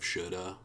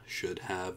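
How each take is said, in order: First: The words blend into one reduced form. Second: Both words are said fully and separately.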